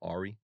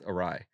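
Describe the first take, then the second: First: The word sounds like 'AR-ee', stressed first. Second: The word sounds like 'uh-RYE', stressed second. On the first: The speaker calls it wrong. "when I say it, I would always say, like, Ari" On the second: The speaker calls it right. "It's awry"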